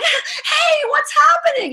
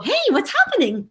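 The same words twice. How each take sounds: First: It is said in an alarmed, panicked way. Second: It is said in a casual, relaxed way.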